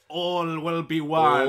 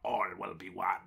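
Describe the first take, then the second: First: It is said in a natural speaking voice. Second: It is said in a put-on comedic character voice.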